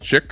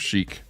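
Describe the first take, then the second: First: It starts with 'ch' and has a short vowel. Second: It starts with 'sh' and has a long vowel. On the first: It refers to chicken. "Because it's chicken, so you say it chick" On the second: It means stylish. "the word chic is something a little bit different"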